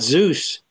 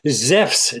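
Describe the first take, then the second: First: It is said with an English, Zoos-like sound. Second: It is said with a Greek, Zefs-like sound. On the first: The speaker calls it wrong. "the English pronunciation" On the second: The speaker calls it right. "That's the modern pronunciation of Zeus"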